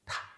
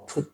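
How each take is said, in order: First: The word has a short reduced vowel. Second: The word has a full oo vowel.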